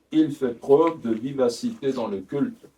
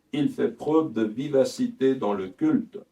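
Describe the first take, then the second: Both takes have the same delivery.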